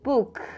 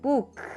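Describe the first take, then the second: First: The final k is released with air. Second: The same.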